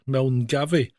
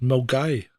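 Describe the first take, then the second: First: "Milngavie" said letter for letter; spelling pronunciation. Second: "Milgai" in two syllables, mil-GUY; local pronunciation. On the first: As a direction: sound the n and v in "Milngavie". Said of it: "so it's spelled M I L N G". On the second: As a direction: drop the n and v, "Milgai" rhyming with guy. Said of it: "but it's pronounced". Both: Shown as a demonstration.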